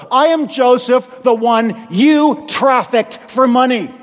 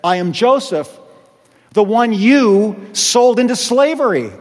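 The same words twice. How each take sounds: First: AM held long and leaned on; firm, I AM Joseph, the one you trafficked; stress on AM. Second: Said in the usual way. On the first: Shown as a demonstration. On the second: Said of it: "he said".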